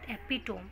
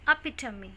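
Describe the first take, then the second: First: The word ends with a 'tome' sound. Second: The word ends with a 'tuh-mee' sound. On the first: The speaker calls it wrong. "This is not एपिटोम" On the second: The speaker calls it right. "This is अपिटमी"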